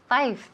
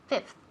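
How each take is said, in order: First: The final th sound is left off. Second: The word ends with a clear th sound. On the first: The speaker calls it wrong. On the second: The speaker calls it right.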